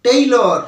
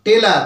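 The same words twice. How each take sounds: First: টেইলর with a gliding "tei" and "lor" ending; correct pronunciation. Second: টেলার with a plain short "te" and "lar" ending; common mispronunciation. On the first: Teacher corrects students' word for darji, carefully pronounced টেইলর, "tei-lor". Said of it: "এর সঠিক উচ্চারণটা হবে". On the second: Teacher quotes the common mistake to students, mispronounced টেলার as "te-lar". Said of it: "আমরা কি বলি?". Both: Shown as a demonstration.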